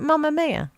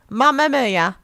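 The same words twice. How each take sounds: First: Said in the usual way. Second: Loud, higher Brummie demonstration; Brummie accent. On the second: Shown as a demonstration. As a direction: belt it out in broad Brummie. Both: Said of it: "Say it with a Brummie accent".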